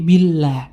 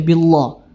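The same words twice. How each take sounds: First: The L in Allah is light and thin. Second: The L in Allah is heavy and thick. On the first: The speaker calls it right. "cuman tarkik ya, tipis ya" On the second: The speaker calls it wrong. "tidak boleh kita baca billah"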